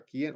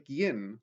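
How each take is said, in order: First: «¿quién?» short and exclaimed; as an exclamation. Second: «¿Quién?» asked as a real question. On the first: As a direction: cry out «¿quién?» in surprise. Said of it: "o una exclamación". («¿quién?» como exclamación) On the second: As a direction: ask «¿Quién?» as if wanting an answer. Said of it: "como si fuera una pregunta". («¿Quién?» como pregunta) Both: Shown as a demonstration.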